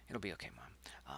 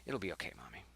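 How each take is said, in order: First: Soft whisper, It'll be okay; child whispering to his hurt mother; whispered comfort. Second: Said in the usual way. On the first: Acted. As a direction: whisper it to calm her.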